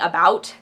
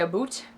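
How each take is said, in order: First: The vowel sounds like 'out', standard American. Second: The vowel sounds like 'oot', stereotyped Canadian. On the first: "Instead of saying about" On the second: "they say aboot"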